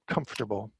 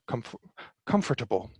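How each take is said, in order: First: The word is said with three syllables. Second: The word is said with four syllables. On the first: "my version of this word is comfortable. Comfortable. It's got three syllables, not four" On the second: "now you might hear comf comfortable"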